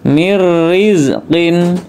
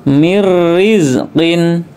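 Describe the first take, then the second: No difference in how they are said.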